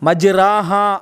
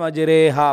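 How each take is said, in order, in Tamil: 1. r-க்கு பின் வரும் உயிர் திறந்த 'a' ஒலி. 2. r-க்கு பின் வரும் உயிர் 'e' பக்கம் சாய்கிறது. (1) "தான் நம்ம ஓதுவோம்" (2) "அப்படின்னு மிச்சம் வளர்ச்சியில்"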